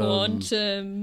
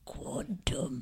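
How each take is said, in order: First: The word is said in a plain, neutral tone. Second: The word is said in a dark, menacing tone. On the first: The speaker calls it wrong. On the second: The speaker calls it right.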